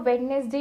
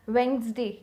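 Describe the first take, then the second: First: The d sound is pronounced in the word. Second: The d sound is silent in the word. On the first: The speaker calls it wrong. "इसको वेडनेसडे नहीं बोलती हैं" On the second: The speaker calls it right. "Correct one is वेंसडे"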